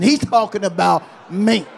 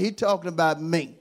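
First: Louder, sassy he's talking about me; with an attitude. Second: Said in the usual way. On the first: Shown as a demonstration. Preacher asks church to say it with an attitude. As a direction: give it some attitude. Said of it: "Say it with an attitude". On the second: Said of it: "tell somebody".

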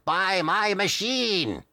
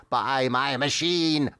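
First: Chanted, high, long-drawn hypnotic wail; chanted, repeat the spell higher, stretching every word; slow, swooping high-pitched sales chant; hypnotist's chant, rising. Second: Chanted, slow, drawn-out hypnotic voice; chanted, stretch each word as if hypnotizing; droning sales chant at half speed; hypnotist's chant. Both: Acted. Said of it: "as though to hypnotize as he mutters".

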